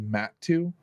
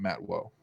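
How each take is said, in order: First: The second syllable sounds like 'two'. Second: The second syllable sounds like 'woe'. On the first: The speaker calls it right. "it's actually Matt two" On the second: The speaker calls it wrong. "and not Matt Woe"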